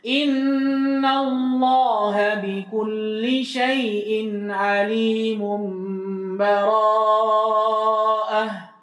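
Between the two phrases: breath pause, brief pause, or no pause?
no pause. The phrases run together with no stop. "praktek terakhir wasal"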